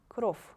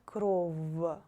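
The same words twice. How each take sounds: First: The final consonant is a voiceless f. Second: The final consonant is a voiced v. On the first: The speaker calls it right. "with the sound F" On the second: The speaker calls it wrong. "not кров"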